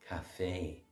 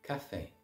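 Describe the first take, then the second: First: The stress is on the second syllable. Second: The stress is on the first syllable. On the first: The place where coffee is bought. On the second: The drink, coffee.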